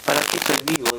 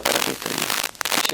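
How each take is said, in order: First: Said in the usual way. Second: Hushed, breathless whisper of despair; barely voiced inner question; whispered to himself. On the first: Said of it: "Yo digo". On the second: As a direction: whisper it as a private thought. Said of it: "Yo me decía".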